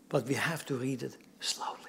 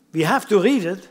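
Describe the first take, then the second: First: Much softer, lower, nearly whispered; hushed caution. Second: Firm, louder statement; firm insistence. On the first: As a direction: drop right down to caution them. Qualifies the instruction by hushing it. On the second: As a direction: press the point out loud. Insists on reading, then qualifies it. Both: Real, not acted.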